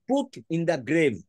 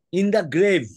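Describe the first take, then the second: First: Very slow, every word spaced out for note-taking; slow, deliberate dictation pace. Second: Said in the usual way. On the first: Shown as a demonstration. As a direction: dictate it slowly so they can write. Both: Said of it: "মানেটা লিখে নাও".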